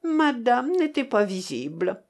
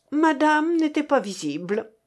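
First: Lightly mocking imitation; mildly derisive repeat; mocking echo. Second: Higher-pitched, stung reply; acid, pitched-up retort; sour retort. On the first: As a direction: parrot it back with a touch of ridicule. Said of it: "répéta encore Adélaïde avec un air moqueur". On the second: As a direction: answer back with sourness. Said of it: "répondit avec aigreur mademoiselle Sophie". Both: A narrator's reading.

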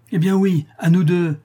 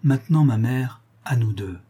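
First: High, loud acceptance of a challenge; heated, raised-voice outburst; fierce cry. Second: Cool, falling at the end; controlled, icy resolve; cold challenge. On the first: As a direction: throw the challenge back at full voice. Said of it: "s'écria la veuve". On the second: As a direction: challenge her without heat. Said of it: "Martial lui dit froidement". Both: A narrator's reading.

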